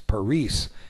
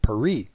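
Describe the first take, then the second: First: It is said with a Spanish pronunciation. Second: It is said with a French pronunciation. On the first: This is how Spanish speakers name the city. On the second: This is how French people name the city. "if you talk to a Frenchman, his city is called Paris"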